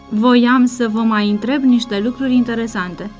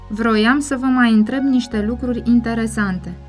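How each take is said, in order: First: The first word has no r after the v. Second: The first word has an r after the v. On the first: The speaker calls it right. "ar fi trebuit să spună" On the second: The speaker calls it wrong. "Asemenea exprimare este improprie"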